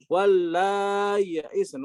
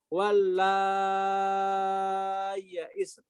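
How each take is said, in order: First: The middle sound is a softened glottal stop. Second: The middle sound is a lengthened y. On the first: "ketika ditasil tawasul dan qasr" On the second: "mengibdalkan menjadi ya disertai mat"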